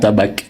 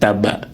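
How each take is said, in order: First: The word ends with a k sound. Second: The word ends without a k sound. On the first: The speaker calls it wrong. "et non pas tabac" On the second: The speaker calls it right. "le C ici, il ne se prononce pas"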